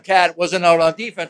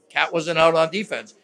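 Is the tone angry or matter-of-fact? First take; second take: angry; matter-of-fact. First: It is said in an angry, heated tone. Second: It is said in a calm, matter-of-fact tone. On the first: The criticism feels personal. "It wasn't like, you know, goddamn" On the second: The criticism is just stating facts. "It's like a very factual way of criticism"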